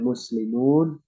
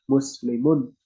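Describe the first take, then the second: First: The final u vowel is held long. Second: The final u vowel is kept short. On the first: It refers to many Muslims. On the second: "berarti hanya hanya satu orang"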